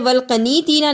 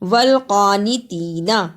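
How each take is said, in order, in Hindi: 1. k के बाद का स्वर छोटा है। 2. k के बाद का स्वर लंबा है। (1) "इसे वल्कनीतीना नहीं पढ़ना" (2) "काफ के ऊपर खड़ी जबर है"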